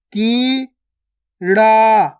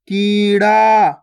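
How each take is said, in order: First: कीड़ा split as kee, pause, raa; syllable by syllable. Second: कीड़ा joined, both vowels long; joined, stretched word. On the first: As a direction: slowly sound out कीड़ा in two held syllables. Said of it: "direct मात्रा का उच्चारण करके पढ़ेंगे". (कीड़ा को तोड़कर, की... ड़ा) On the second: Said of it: "खींच के पढ़ना है". (कीड़ा मिलाकर, खींचकर) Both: Shown as a demonstration.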